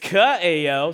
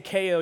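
First: The name is said with three syllables. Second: The name is said with two syllables. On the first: The speaker calls it right. "my name is Kaeo" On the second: The speaker calls it wrong. "If you say K-O, you're saying cornucopia"

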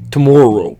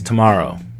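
First: The O vowel is strongly drawn out and exaggerated. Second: The O vowel is said plainly, without exaggeration. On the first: "I said that very Canadianly. ... But I leaned hard into that O" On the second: "what he said they pronounce like is tomorrow"

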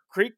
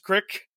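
First: It is said in a standard American accent. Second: It is said in a Delaware accent.

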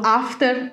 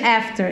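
First: It is said with a Dutch accent. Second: It is said with an American accent.

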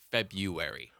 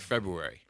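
First: The first R is dropped. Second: The first R is clearly pronounced. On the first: This is how most other people say it. "Everyone else that I know always says February" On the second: This is the speaker's own deliberate way of saying it. "I'm gonna use this R, and I say it February"

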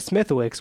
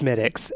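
First: A W sound is heard in the middle. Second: No W sound is heard in the middle. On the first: The speaker calls it wrong. "which is exactly what I did" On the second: The speaker calls it right. "the guy corrected me so fast. He was like, it's Smithix"

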